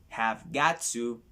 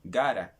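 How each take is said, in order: First: Each word is said fully and separately. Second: The words are run together into a contraction.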